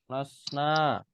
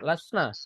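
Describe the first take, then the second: First: The final vowel is held long. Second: The final vowel is kept short. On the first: "Nanya panjang" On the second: "Yang pendek"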